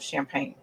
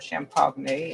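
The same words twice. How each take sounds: First: The word has its usual, ordinary pronunciation. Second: The word has a jokey, mock pronunciation.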